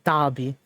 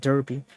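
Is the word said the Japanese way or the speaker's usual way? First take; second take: Japanese way; usual way. First: The first syllable sounds like 'dar'. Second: The first syllable sounds like 'der'. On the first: The speaker calls it right. "apparently it's pronounced Derby, ... just like how the Japanese say it" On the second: The speaker calls it wrong. "I keep saying Derby"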